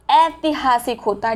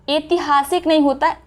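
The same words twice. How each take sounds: First: ऐतिहासिक starting with a wide "ai"; correct AI sound. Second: ऐतिहासिक starting with a closed "e"; wrong E sound. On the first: Teacher correcting it, AI at the start. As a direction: open the first vowel of ऐतिहासिक. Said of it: "ये है आय". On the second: Teacher quoting the mistake, E at the start. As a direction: say "etihasik" for ऐतिहासिक. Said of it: "इसको बोला था ए". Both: Shown as a demonstration.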